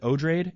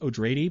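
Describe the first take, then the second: First: The name does not sound like Atreides. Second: The name sounds like Atreides. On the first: This is how most people say it. The speaker calls it wrong. "Everyone pronounces it Odrade" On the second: This is how the author intended it. The speaker calls it right. "supposed to sound like Atreides"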